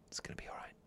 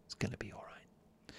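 First: Soft breathy whisper of comfort. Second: Hushed whisper, reassuring. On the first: Host whispering comfort to listeners in bed, whispered. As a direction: whisper it like soothing someone to sleep. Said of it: "I whisper that". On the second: Host repeating the comfort line for listeners, whispered. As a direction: breathe it out gently as a whisper. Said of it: "do you like the whisper?". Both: Shown as a demonstration.

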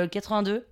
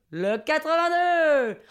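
First: Said in the usual way. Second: High, slow hall announcement; bingo caller. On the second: Retold or imitated. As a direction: draw the number out for the whole hall. Monsieur Loyal announces the number. (annonce traînante de monsieur Loyal)

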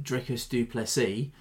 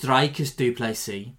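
First: "Dricus du Plessis" with "Dri" as in drip and "Plessis" as "PLESS-ee"; anglicised pronunciation. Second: "Dricus du Plessis" with "Dri" rhyming with dry and "Plessis" as "PLAY-see"; Afrikaans pronunciation. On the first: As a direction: say "Dricus du Plessis" the English way, "DRICK-us doo PLESS-ee". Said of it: "but apparently it's". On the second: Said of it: "apparently it's". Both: Shown as a demonstration.

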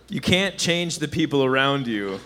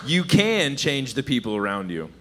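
First: CAN'T said slowly and leaned on; stress on CAN'T. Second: CAN said slowly and leaned on; stress on CAN. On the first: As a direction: hit the word can't, slow delivery. Punchline setup, contrasting stress. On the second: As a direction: hit the word can, slow delivery. Punchline, contrasting stress. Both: Shown as a demonstration.

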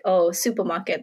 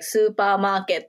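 First: Said in the usual way. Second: SUPERMARKET said slowly as a Japanese loanword; Japanese-accented "Supermarket". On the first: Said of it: "say it in an English accent". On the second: Shown as a demonstration. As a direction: say "Supermarket" with Japanese vowels and syllables. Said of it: "in a Japanese way".

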